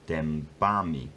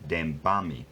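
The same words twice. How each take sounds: First: The stress is on the second syllable. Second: The stress is on the second syllable.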